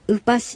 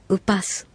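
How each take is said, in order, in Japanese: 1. この単語は sh の音で終わります。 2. この単語は s の音で終わります。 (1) "この小さいシは、" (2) "スという発音になることもあります"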